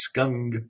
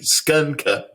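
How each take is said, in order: First: An ng sound comes before the k. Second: A plain n before the k, extra vowel. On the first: The speaker calls it right. "You say the ng before you say the K" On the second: The speaker calls it wrong. "That doesn't sound right"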